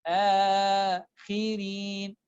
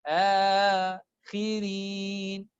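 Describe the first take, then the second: The two takes are said the same way.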